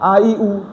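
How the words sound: The vowels are said softly and lightly. The speaker calls it wrong. "নরম করে পড়ে"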